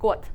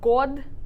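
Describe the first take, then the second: First: The final consonant is voiceless. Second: The final consonant is voiced. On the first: The speaker calls it right. "we say got" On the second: The speaker calls it wrong. "instead of god"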